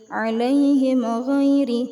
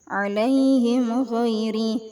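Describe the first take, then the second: The two takes are said the same way.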